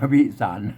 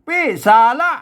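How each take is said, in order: First: The word ends without the 'ra' syllable. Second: The word ends with an extra 'ra' syllable. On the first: This is how it is read in Thai. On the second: This is the reading as written in the old script.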